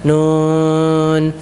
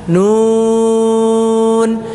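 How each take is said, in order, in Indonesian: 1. Vokal u tidak diucapkan dengan jelas. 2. Vokal u diucapkan dengan jelas dan penuh. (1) "Jadi jangan" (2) "Nun dijelaskan U-nya"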